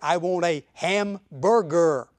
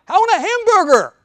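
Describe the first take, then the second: First: It is said at normal volume. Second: It is said loudly.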